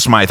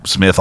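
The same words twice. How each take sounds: First: "Smythe" with a long i; joke pronunciation. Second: Said in the usual way. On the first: Shown as a demonstration. Correcting co-hosts on the name, deliberate "Smythe" with long i. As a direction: say "Smythe" to rhyme with "scythe". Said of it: "It's pronounced Smythe". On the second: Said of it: "why everyone calls him Smith".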